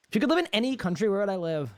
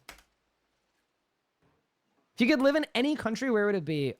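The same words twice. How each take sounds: First: Quick rushed reread of the question; hurried recap of the viewer's question; fast reread. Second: Drawn-out slow read of the question; slow, careful reading of a viewer's question. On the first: Rereading the same chat question. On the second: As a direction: read it aloud slowly, word by word. Reading a chat question aloud. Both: Real, not acted.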